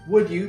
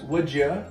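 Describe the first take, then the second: First: The d and y sounds stay separate. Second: The d and y blend into a j sound.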